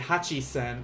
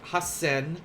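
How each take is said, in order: First: The middle has a full 'chi' syllable. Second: The middle has a long doubled s sound. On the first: The speaker calls it wrong. "but you say hachisen, uh, then that's that's that would be kind of a wrong thing" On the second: The speaker calls it right. "if you type like hasen like this"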